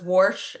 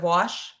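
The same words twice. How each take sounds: First: The word is said with a regional accent. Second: The word is said with a plain accent. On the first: This is how the speaker's mother says it. "so my mom says wash" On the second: This is the usual way to say it. "instead of wash"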